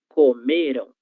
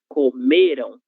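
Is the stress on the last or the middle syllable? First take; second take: middle; middle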